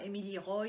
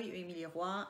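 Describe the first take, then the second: First: "Roy" said with an open "oy" ending; "Roy" as in English boy; name pronounced foreign-style. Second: "Roy" said as French "rwa"; "Roy" ending in a French "wa"; name pronounced French-style. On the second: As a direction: say Roy like the French word roi. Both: Shown as a demonstration. Saying character names, two ways.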